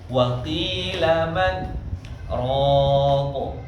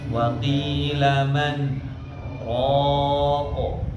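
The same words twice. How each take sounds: First: The n sound is cut short and unclear. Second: The n sound is drawn out slightly and clear. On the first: The speaker calls it wrong. "Langsung hilang karena cepat-cepat ingin berhenti" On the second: The speaker calls it right. "Harusnya dia dialirkan sedikit"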